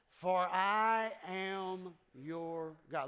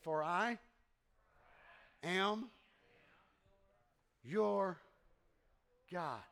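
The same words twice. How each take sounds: First: The phrase is said at a faster pace. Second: The phrase is said at a slower pace.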